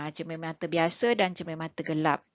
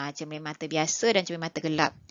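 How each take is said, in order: Both takes have the same delivery.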